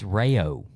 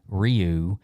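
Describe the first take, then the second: First: The name rhymes with mayo. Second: The name does not rhyme with mayo. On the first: The speaker calls it right. "it's Rayo, like mayo" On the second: The speaker calls it wrong. "I've been saying Ryu"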